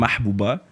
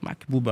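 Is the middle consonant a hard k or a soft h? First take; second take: soft h; hard k. First: The middle consonant is a soft breathy h. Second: The middle consonant is a hard k sound. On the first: The speaker calls it right. "Mon nom de famille, c'est" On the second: The speaker calls it wrong. "Il a dit un Mac"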